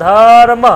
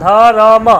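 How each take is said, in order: No difference in how they are said.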